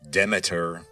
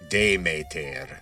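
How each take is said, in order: First: The name is said with everyday English sounds. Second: The name is said with ancient Greek sounds. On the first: "otherwise known as Demeter or Demeter" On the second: "The original pronunciation was something like Demeter, if you're going with the Attic pronunciation"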